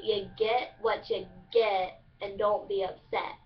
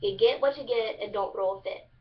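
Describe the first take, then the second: First: Careful, slow "get" rhyming with "yet"; standard pronunciation. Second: Eastern Kentucky "get" said as "git"; Kentucky twang, rhyme "get" with "fit"; Eastern Kentucky dialect. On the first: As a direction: say "get" with a clear short E, unhurried. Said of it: "it's supposed to be". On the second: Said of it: "Eastern Kentucky dialect form". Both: Shown as a demonstration.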